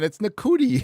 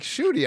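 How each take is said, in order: First: The name begins with an n sound. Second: The name begins with a sh sound. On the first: The speaker calls it wrong. "no, it's not. It's Nakuti" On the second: The speaker calls it right. "somebody told me how to pronounce that"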